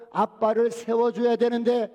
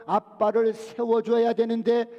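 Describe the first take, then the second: No difference in how they are said.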